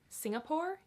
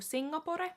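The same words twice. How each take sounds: First: It is pronounced with English sounds. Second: It is pronounced with Finnish sounds.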